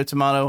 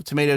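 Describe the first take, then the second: First: "tomato" as to-MAH-to; British pronunciation. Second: "tomato" as to-MAY-to; American pronunciation. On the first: Shrugging off a name dispute, "tomato" as to-MAH-to. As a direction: say "tomato" with an "ah" in the middle. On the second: Shrugging off a name dispute, "tomato" as to-MAY-to. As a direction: say "tomato" with an "ay" in the middle. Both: Shown as a demonstration. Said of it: "People have pronounced it differently".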